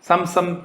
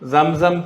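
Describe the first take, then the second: First: The word starts with an 's' sound. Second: The word starts with a 'z' sound. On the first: The speaker calls it wrong. "പക്ഷെ സംസം അല്ല" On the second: The speaker calls it right. "എന്നാണ് സാധാരണ ഉച്ചരിക്കേണ്ടത്"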